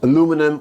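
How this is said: It is said with four syllables, American style. "Aluminum on the American pronunciation is easier"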